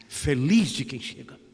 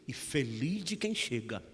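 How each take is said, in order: First: Louder, proclaimed repeat of the blessing; ringing blessing. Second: Said in the usual way. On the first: Acted. To his grandmother, proclaiming the blessing out loud. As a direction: say it again, ringing out to the room.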